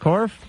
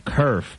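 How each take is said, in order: First: The vowel sounds like the one in 'core'. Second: The vowel sounds like the one in 'her'. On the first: The speaker calls it right. "You said it right" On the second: The speaker calls it wrong. "I really want to say kerf"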